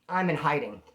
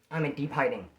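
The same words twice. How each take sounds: First: Said in the usual way. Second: I'm in deep hiding dropped soft and low; hushed. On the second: Shown as a demonstration. Comic telling the crowd he went underground, hushed. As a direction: sink the voice as if hiding.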